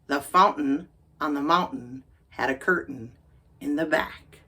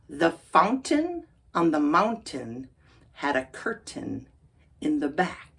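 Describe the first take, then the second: First: The T sounds are stopped, not released. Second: The T sounds are fully released. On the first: "then we'll do it with the stop T" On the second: "First we'll do it regular"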